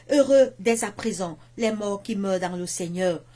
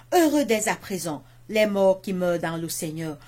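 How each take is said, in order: The two takes are said the same way.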